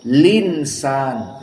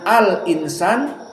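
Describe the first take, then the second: First: The hamzah is dropped: linsan. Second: The hamzah is kept: al insan. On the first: This is the Warsh reading with the vowel moved. "hamzahnya hilang, namun harokatnya dipindahkan ke lam. Jadi linsan" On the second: This is the original reading before the change. "Tadinya al insan"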